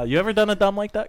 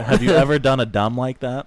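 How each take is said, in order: First: It is said at normal speed. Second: It is said slowly.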